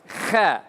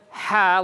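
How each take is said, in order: First: It starts with a scraping kh sound. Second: It starts with a breathy h sound. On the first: The speaker calls it wrong. "but as kha" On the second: The speaker calls it right. "not as ha like it's supposed to"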